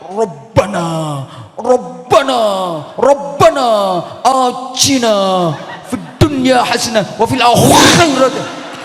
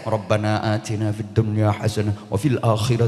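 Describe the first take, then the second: First: It is recited in a strained, forceful manner. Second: It is recited in a relaxed, easy manner. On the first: "Mbok nganti intil-intilmu merotoli" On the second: "Ambok nyantai"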